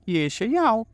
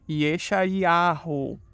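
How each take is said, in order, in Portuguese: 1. O R fraco não é pronunciado. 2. Um R fraco é pronunciado. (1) "você excluir essa letra aí, que tem som de R fraco" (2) "Mas a pronúncia correta é com esse nome em cima"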